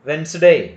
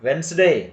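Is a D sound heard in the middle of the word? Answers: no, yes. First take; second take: no; no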